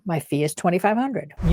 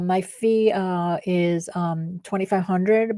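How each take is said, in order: First: It is calm and steady, with no fillers. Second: It is hesitant, broken up by filler sounds. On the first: The speaker is secure in their worth. The speaker calls it right. "speak with weight" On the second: The speaker is unsure of their worth. The speaker calls it wrong. "Instead of saying"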